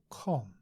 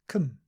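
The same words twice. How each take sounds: First: The vowel is an o with rounded lips. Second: The vowel is a relaxed schwa sound. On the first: The speaker calls it wrong. "not com. Not with a round mouth" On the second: The speaker calls it right. "has com at the beginning"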